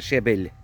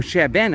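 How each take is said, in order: First: "shebel" ending in an l sound; mistaken pronunciation. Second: "sheben" ending in an n sound; corrected pronunciation. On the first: Owning up to the mistaken word, "shebel" ending in l. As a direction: say "shebel" with final l, not n. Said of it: "I thought shebel". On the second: Repeating the wife's correction, "sheben" ending in n. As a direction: say "sheben" with final n, not l. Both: Real, not acted.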